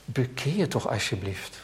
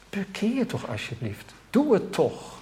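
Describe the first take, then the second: First: Soft plea. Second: Softer, higher begging plea; a quiet, higher plea to come home; tender pleading. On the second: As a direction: beg them gently, almost hushed. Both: Shown as a demonstration. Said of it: "zou je bijna kunnen vertalen met".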